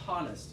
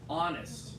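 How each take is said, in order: First: The H sound at the start is pronounced. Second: The H sound at the start is silent. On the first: The speaker calls it wrong. "not honest" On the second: The speaker calls it right. "some words that begin with H are also silent"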